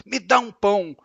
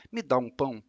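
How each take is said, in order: First: Demanding. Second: Softer, lower polite ask; gentle request. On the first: Teacher acting out an arrogant demand. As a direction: say it like you expect to be obeyed. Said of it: "obrigando você a dar um pão". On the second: Teacher showing the polite way to read it. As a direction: ask kindly, not demanding. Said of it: "ela pode estar pedindo". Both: Shown as a demonstration.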